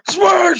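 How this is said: It is said with very strong anger.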